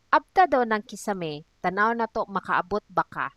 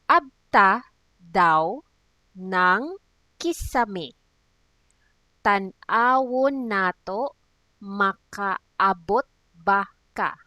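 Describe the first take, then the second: First: It is said at a normal pace. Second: It is said slowly and carefully.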